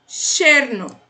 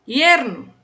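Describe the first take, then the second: First: The word begins with an sh sound. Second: The word begins with a y sound. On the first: "a primeira é com som de X" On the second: "Terceira, também falo essa, som de I"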